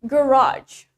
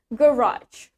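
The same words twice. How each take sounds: First: The stress is on the second syllable. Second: The stress is on the first syllable. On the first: This is the American pronunciation. "And in American accent, the stress is in the second syllable" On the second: This is the British pronunciation. "in British accent, the stress is in the first syllable"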